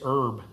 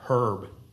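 First: It is said the American way. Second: It is said the British way. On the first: The speaker calls it right. "I think it's herb" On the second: The speaker calls it wrong. "not herb ... because he's a good English actor"

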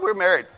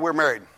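First: It is said in an excited, lively way. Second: It is said in a flat, bored way. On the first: The marriage is new and thrilling. "you had the honeymoon. Woo, woo, woo, we got married" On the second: The marriage has grown dull over the years. "About 15 years later, yeah"

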